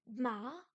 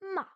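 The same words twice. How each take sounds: First: It is said with the second tone. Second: The pitch starts high and drops sharply. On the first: "Le plus dur à faire, c'est le deuxième ton" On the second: "c'est celui qui part du haut et qui descend tout d'un coup"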